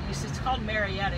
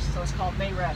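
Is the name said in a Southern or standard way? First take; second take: standard; Southern. First: Marietta is said with a standard pronunciation. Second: Marietta is said the Southern way, without R.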